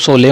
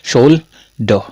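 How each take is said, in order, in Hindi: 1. यह शब्द सादी 's' ध्वनि से शुरू होता है। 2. यह शब्द 'sh' ध्वनि से शुरू होता है। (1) "इसको सोले मत पढ़ देना" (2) "क्या पढ़ेंगे?"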